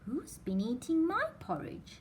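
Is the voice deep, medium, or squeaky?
medium. It is said in a medium-pitched voice. A middle-sized bear is speaking. "said Mother Bear in a middle-sized voice"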